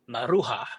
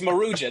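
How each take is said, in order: First: The name gets a Southwestern US pronunciation. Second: The name gets a different, non-Southwestern pronunciation. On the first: The speaker calls it wrong. "I'm from the Southwest, so I always said Maruja, which is not not how you say it" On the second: The speaker calls it right. "It's Maruja"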